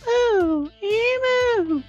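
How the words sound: It is said in a very high pitch.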